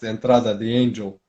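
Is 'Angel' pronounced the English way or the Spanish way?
English. Angel is said with an English stress and G. The speaker calls it wrong.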